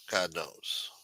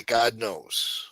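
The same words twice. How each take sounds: First: God knows repeated low and much softer; muttered aside. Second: Said in the usual way. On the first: Real, not acted. Repeats phrase, second fades.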